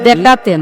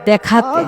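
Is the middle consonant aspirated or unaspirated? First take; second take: unaspirated; aspirated. First: The middle consonant is a plain unaspirated k. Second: The middle consonant is an aspirated kh. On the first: The speaker calls it wrong. "তুমি ক বলছো" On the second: The speaker calls it right. "খ হবে"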